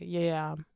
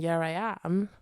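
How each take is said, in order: First: Said in a regional accent, run together like yam. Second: Said clearly in a generic accent as separate words. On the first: "I'll say yeah, I am. Yam" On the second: "instead of saying"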